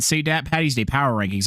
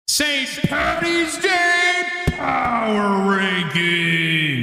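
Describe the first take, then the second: First: It is said plainly, without much energy. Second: It is said with big, announcer-like flair. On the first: The speaker calls it wrong. "I didn't say it right" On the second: The speaker calls it right. "how I normally say it"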